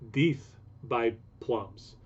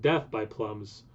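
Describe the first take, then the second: First: The first word has a long 'ee' vowel. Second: The first word has a short 'eh' vowel. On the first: The speaker calls it right. "apparently it's pronounced more like Deeth" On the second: The speaker calls it wrong. "not Death by Plums"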